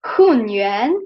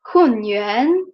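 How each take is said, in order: First: Hunyuan with the voice dipping low then rising; teacher models Hunyuan's tones; tone demo. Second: Hunyuan dipped again, rising at the end; tone demo repeat. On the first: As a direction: dip Hunyuan down and back up. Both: Shown as a demonstration. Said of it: "So this will sound like".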